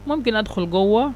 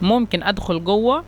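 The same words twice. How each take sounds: Both takes have the same delivery.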